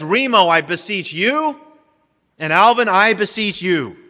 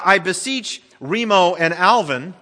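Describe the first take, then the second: First: Remo I beseech you, and Alvin I beseech you, each name singled out; individual appeals. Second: Said in the usual way. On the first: Shown as a demonstration. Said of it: "Instead, he says". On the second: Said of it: "In other words, it's not".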